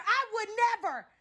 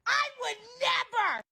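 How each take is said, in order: First: Defiant shout. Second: High drawn-out refusal. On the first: Refusing to be robbed. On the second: Repeat, higher and slower. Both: Acted.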